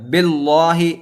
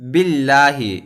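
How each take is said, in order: First: The L sound is heavy and thick. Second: The L sound is light and thin. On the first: The speaker calls it wrong. "इस तरह नहीं पढ़ना है" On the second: The speaker calls it right. "बल्कि बिल्लाही इस तरह"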